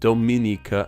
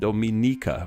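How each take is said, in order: First: The stress is not on the ni syllable. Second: The stress is on the ni syllable.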